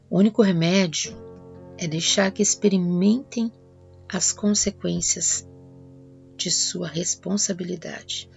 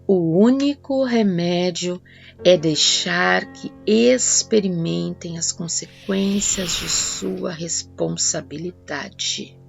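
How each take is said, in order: First: It is read in a plain, even way. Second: It is read with strong, deliberate emphasis.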